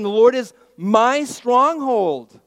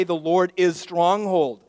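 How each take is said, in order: First: "my" in "The Lord is my stronghold" punched, loud and high, slow; stress on my. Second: "The Lord is stronghold" with no "my", level stress; the wrong version. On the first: Pastor showing David's words are personal, stressing my. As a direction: lean hard on "my". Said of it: "He's mine". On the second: Pastor quoting the wrong version to the church, emphatic. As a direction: read "stronghold" without the possessive. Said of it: "That's not what he says". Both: Shown as a demonstration.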